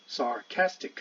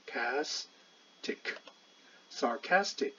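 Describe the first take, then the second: First: Said in the usual way. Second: Very slow "castic, sarcastic" with "cas" raised and stressed. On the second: Shown as a demonstration. Teacher stressing "cas" in "sarcastic" for students. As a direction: lift the syllable "cas" in "sarcastic", very slowly. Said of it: "这是重音，拉高".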